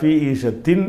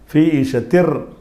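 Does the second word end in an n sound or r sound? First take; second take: n sound; r sound. First: The second word ends with a clear n sound. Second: The second word ends with an r sound. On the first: The speaker calls it wrong. "ஃபீ ஈஷத்தின் என்று சொல்லாமல்" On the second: The speaker calls it right. "அந்த இரு இங்கே சேர்த்துக்கிறணும், இந்த இன் உச்சரிப்பு போயிடும்"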